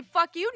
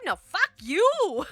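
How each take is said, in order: First: High, loud, rising retort; mock indignant question. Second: High, loud, drawn-out yell; angry outburst. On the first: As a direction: throw it back as a question. Mockingly throws the insult back. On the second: Pretend. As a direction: yell it back, stretching YOU. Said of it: "that little outburst".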